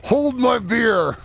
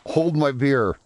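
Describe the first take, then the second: First: High, slow, drawn-out dare; hammed-up high goofy voice. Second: Said in the usual way. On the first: Shown as a demonstration.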